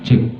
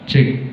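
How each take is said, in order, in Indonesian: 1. Suaranya kering, tanpa gema. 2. Suaranya jernih, dengan treble dan gema yang lebih banyak. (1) "Kita nggak pakai efek vokal nih ya" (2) "itu dominan suara kalau kami ngomongnya itu renyah"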